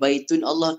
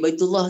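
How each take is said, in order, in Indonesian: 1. Bunyi n memisahkan baitun dari Allah. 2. Kata-kata itu disambung tanpa bunyi n. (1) "jadi baitun Allah ke baitullah?" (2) "jadi baitullah kan?"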